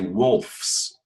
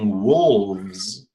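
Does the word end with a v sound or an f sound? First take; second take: f sound; v sound. First: The ending uses a voiceless f sound. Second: The ending uses a voiced v sound. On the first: The speaker calls it wrong. "you'll say wolves" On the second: The speaker calls it right. "instead of saying wolves"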